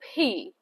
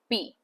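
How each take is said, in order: First: The P has a strong puff of air. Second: The P has no puff of air. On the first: "you can say P, P. You can simply push out through your lips" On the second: "normally we would say P, T, B, D ... with a hard accent. That is our Indian accent"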